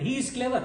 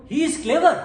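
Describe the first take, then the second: First: Said in the usual way. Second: Rising, louder question; question intonation. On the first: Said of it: "changed for the statement". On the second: Shown as a demonstration. Teacher contrasting question with statement, rising tune. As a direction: lift the end of clever into a question. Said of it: "So the rhythm changed".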